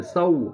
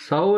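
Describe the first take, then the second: First: سو as "sau", gliding into "oo"; clear Arabic waw. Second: سو with a single "o" vowel; wrong Urdu vowel. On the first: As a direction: open سو on "a", close on waw. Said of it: "واو کو صحیح طرح پڑھیں گے". (سو واو کو واضح کر کے) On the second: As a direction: say سو like Urdu "so", no glide. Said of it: "سو نہیں پڑھیں گے". (سو اردو کے مجہول واو سے) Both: Shown as a demonstration.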